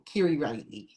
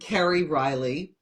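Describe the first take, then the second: First: The name is said in a Syracuse accent. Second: The name is said in a neutral accent. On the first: "where I grew up, I said my name" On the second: "Today, you know, I'm"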